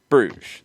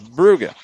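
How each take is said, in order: First: It ends with a soft 'zh' sound. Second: It ends with a hard G sound. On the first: This is the French form of the name. "as the French pronunciation" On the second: This is the Flemish form of the name. "a hard G"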